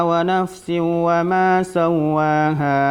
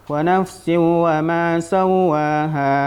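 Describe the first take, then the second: Both takes have the same delivery.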